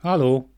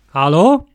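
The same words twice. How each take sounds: First: Said in the usual way. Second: Loud rising hello; loud questioning call. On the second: Acted. Calling louder, rising.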